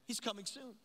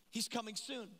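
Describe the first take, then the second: No difference in how they are said.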